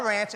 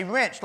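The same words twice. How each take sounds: First: "wrench" said as "ranch", with the open a of cat; the misheard ranch. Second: "wrench" said with the short e of bed, like the tool; the correct wrench. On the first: Instructor repeats the word he misheard from Mark, as "ranch". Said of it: "it's not a wrench". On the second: Instructor corrects himself to the tool "wrench". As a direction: give "wrench" a clean short e sound, not ranch. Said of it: "it's a wrench". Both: Shown as a demonstration.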